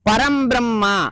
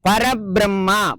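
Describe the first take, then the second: First: The first word ends in an m sound. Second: The first word ends in a bare vowel. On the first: The speaker calls it right. "சேர்த்து சொல்லணும்" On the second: The speaker calls it wrong. "மொட்டையா சொல்லாம"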